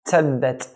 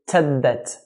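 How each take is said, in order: First: The t has a hissing s-like release. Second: The same.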